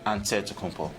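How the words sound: It is said the Greek way, with NT.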